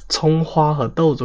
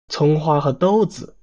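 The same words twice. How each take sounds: First: It is said in plain standard Mandarin. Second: It is said with a rising Hunan-accented tune.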